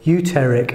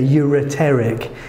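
First: One syllable of the word is left out. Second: Every syllable of the word is pronounced. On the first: The speaker calls it wrong. "if you miss one out, it becomes uterer, uteric" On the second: The speaker calls it right. "Just make sure you get all those syllables in there"

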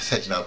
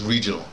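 First: The first sound is like an H. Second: The first sound is an R. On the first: "they pronounce it the R or like an H" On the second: "it's regional"

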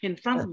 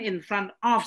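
First: The phrase is squeezed into a quick reduced form. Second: Every sound in the phrase is clearly pronounced. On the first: "kok hanya di F F gitu" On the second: "in front of sebetulnya"

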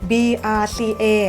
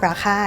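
First: Each letter is said separately. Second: It is said as a single word. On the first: "สะกด" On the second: "อ่านว่า"

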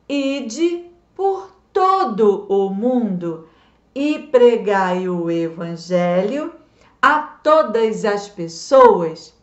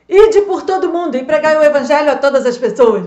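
First: The verse is recited at a normal, slower pace. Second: The verse is recited at a noticeably faster pace.

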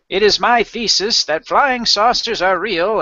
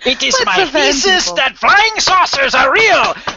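First: It is read in the speaker's ordinary accent. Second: It is read in a put-on German accent. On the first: The speaker calls it wrong. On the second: The speaker calls it right.

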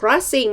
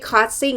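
First: The opening cluster includes a clear r sound. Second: The opening cluster drops the r sound. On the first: The speaker calls it right. "อย่าลืมต้องควบกล้ำ" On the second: The speaker calls it wrong. "ไม่ใช่"

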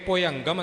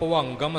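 First: An 'i' vowel follows 'bhu' before the nasal. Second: An 'a' vowel follows 'bhu' before the nasal. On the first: The speaker calls it wrong. "ਇੱਥੇ ਭੁਅੰਗਮ ਨਹੀਂ ਬੋਲਣਾ" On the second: The speaker calls it right. "ਸਿੱਧੀ ਹੀ ਐੜੇ ਉੱਪਰ ਟਿੱਪੀ ਹੈ"

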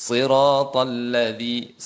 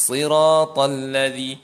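No difference in how they are said.

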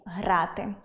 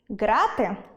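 First: The word begins with a breathy h-like sound. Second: The word begins with a hard g sound. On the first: It means to play. The speaker calls it right. "має бути дієслово зі звуком «г»" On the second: It means prison bars. The speaker calls it wrong. "Грати у в'язниці"

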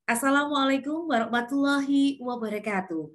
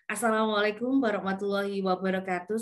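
First: It is said with varied pitch and smiling. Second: It is said flatly with little pitch movement. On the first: The speaker calls it right. "Dengan intonasi dan smiling voice" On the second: The speaker calls it wrong. "tanpa intonasi"

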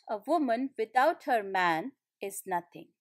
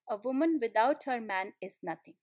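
First: It is said with a pause inside. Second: It is said without any pause inside.

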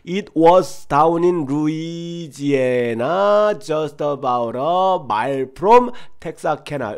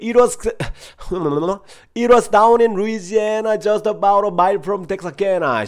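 First: It is said at a slow pace. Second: It is said at a fast pace. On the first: "처음에 천천히 가볼게요" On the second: "빠르게 좀 가볼게요"

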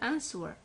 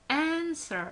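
First: The W sound is pronounced. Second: The W sound is silent. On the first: The speaker calls it wrong. "لا نقول answer" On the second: The speaker calls it right. "إذن لدينا silent W"

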